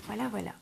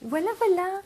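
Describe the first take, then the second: First: Said in the usual way. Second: High, lilting voilà voilà; sing-song voilà. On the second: Real, not acted. Admires the finished project. (voilà voilà chantonné, aigu)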